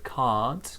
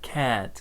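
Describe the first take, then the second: First: It is said with a British vowel. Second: It is said with an American air-like vowel. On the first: "for me, obviously I'm from the U K, so I say can't have" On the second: "Americans might say more like can't, can't, like an air sound"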